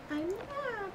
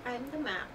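First: Pitched up playful singsong; high sing-song. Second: Said in the usual way. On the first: Pretend. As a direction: chirp it up high and silly. Repeating a silly line in sing-song.

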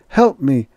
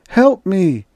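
First: Raised, urgent plea; calling for help. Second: Higher, more desperate repeated plea; desperate cry for help. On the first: Staggering Holbrook calling for help. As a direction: call out for help. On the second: Staggering Holbrook crying out again for help. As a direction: cry out louder the second time. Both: A narrator's reading.

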